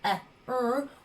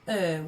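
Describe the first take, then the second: First: The two letters are sounded separately. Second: The two letters make one single sound. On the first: The speaker calls it wrong. "we do not say eh, er" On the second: The speaker calls it right. "we say er when we see them together"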